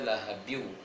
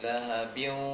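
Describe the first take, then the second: The two takes are said the same way.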